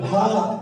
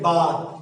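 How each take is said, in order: First: The first consonant is aspirated, with a breathy puff. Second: The first consonant is unaspirated, with no puff. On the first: "মহৎ থেকে কি অল্প" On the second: "মহৎ থেকে কি অল্প"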